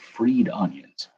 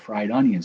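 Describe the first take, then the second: First: The vowel in the first word sounds like 'ee'. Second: The vowel in the first word sounds like 'eye'. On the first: "I guess I should start saying freed onions" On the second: "It's spelled like fried"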